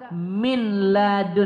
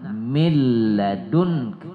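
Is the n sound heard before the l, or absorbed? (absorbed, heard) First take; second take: heard; absorbed. First: The n sound is clearly pronounced before the l. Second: The n merges into a doubled l without nasal hum. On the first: The speaker calls it wrong. "Tidak benar kita baca min ladun. ... itu salah" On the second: The speaker calls it right. "tidak kita baca dengung itu dia bila gunnah"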